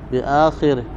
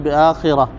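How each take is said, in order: First: Long first vowel, i after kh, ending -ihi. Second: Long first vowel, i after kh, ending -ah. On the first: "مد الهمزة وكسر الخاء والراء بعدها ضمير الغائب" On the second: "بمد الهمزة وكسر الخاء وفتح الراء بعدها تاء مربوطة"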